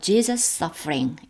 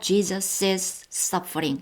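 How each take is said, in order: First: The name runs straight into 'suffering'. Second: An extra 'iz' syllable comes before 'suffering'. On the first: "이렇게 그냥 쉽게 읽겠습니다" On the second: "해도 되고요"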